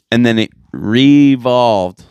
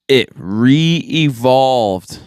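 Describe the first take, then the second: First: "re-evolved" leaned on, a bit slower, slightly louder; emphatic repeat. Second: "it re-evolved" drawn out very slowly, each syllable stretched; slow dramatic reveal. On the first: Repeating the claim so listeners catch it, slower and emphatic. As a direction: repeat "it re-evolved" with a disbelieving punch. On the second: Announcing absurd science news to listeners, drawn out slowly. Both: Shown as a demonstration. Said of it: "Let me say it again".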